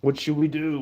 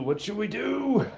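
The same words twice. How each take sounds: First: Said in the usual way. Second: Same question again, much higher and lighter; playful high repeat. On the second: Real, not acted. Asking the chat again, playful high voice. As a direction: lift it way up, teasing.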